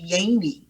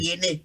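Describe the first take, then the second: First: The name is said the American way. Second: The name is said the Liberian English way.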